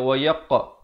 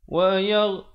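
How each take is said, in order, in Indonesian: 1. Huruf konsonan terakhir keras, dengan pantulan bergema. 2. Huruf konsonan terakhir lembut, tanpa pantulan bergema. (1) "Salah ya, di sini tidak ada pantulan" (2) "Huruf ghain bukan huruf qalqalah"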